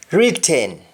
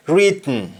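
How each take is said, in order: First: WRITTEN with full "ten"; English-style vowel ending on WRITTEN; English pronunciation. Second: Sung, WRITTEN as "rit-n"; sung, Jamaican syllabic N in WRITTEN; Jamaican humming. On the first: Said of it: "we don't say happen". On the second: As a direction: hum the end of WRITTEN. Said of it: "That is harming". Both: Shown as a demonstration.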